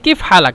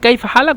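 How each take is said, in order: First: The first word has a short 'ee' vowel, Saudi style. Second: The first word has the 'ay' vowel, Standard style. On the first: This is how Saudis say it. "ওরা বলে কিফ হালাক" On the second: This is the standard form. "আমরা বলি কাইফ হালাক"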